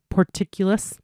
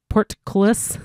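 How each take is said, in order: First: Porticulus, stumbled over and mangled; mispronounced word. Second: Portcullis, said right as port-CULL-is; corrected word. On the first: Reader trips on the word porticulus, mispronouncing it. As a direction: say porticulus wrongly, as a slip. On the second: Reader corrects herself on Portcullis, careful pronunciation. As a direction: fix the slip: Portcullis, cleanly. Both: Shown as a demonstration.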